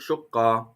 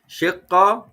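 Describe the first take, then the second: First: The first vowel is u. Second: The first vowel is i. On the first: "They have three pronunciations" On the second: "They have three pronunciations"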